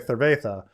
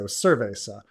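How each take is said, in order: First: It is said in a Castilian Spanish accent. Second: It is said in a Latin American Spanish accent. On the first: "somebody in Spain will say" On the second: "in Latin America will say"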